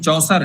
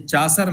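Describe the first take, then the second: First: The first vowel is a rounded 'aw' sound. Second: The first vowel is an open 'ah' sound. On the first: The speaker calls it right. "ये चौसर है" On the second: The speaker calls it wrong. "ये चासर नहीं है"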